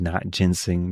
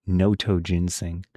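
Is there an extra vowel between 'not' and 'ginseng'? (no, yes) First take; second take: no; yes. First: It is said as 'not' then 'ginseng'. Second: It is said with an 'o' before 'ginseng'. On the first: The speaker calls it wrong. "I thought it said not ginseng" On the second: The speaker calls it right. "but it's notoginseng"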